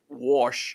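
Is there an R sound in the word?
yes. It is said with an R sound, like warsh. This is how the friend from Missouri says it. "he always says wash"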